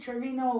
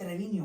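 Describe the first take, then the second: First: The name is pronounced with English sounds. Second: The name is pronounced with Spanish sounds. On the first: This is how other people say it. The speaker calls it wrong. "They say Trevino" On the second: The speaker calls it right.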